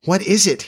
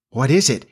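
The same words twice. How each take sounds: First: Put-on high, alarmed child's cry; pained cry. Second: Mildly alarmed cry; shrinking cry. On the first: Peter recoiling from grown Wendy, high distressed cry. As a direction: cry it out, pitched well up. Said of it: "he cried again". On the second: Peter shrinking as fear assails him, mild alarmed cry. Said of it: "he cried, shrinking". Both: A narrator's reading.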